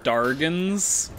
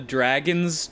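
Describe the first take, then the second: First: The r comes after the vowel: darg-ons. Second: The r comes before the vowel: drag-ons. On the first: The speaker calls it wrong. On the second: The speaker calls it right.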